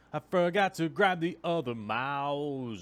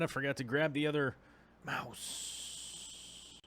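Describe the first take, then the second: First: Loud, drawn-out higher call; playful yelling. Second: Said in the usual way. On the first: Pretend. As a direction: yell it slowly, stretching each word. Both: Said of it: "I was just yelling".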